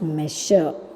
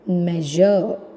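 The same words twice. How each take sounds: First: The middle consonant is a voiceless sh sound. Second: The middle consonant is a voiced zh sound. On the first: The speaker calls it wrong. "not measure" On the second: The speaker calls it right. "their pronunciation for uh, measure will be measure"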